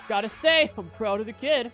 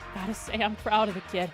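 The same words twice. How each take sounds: First: Said in a closer imitation of the character's voice. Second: Said in a looser imitation of the character's voice. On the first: The speaker calls it right. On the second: The speaker calls it wrong.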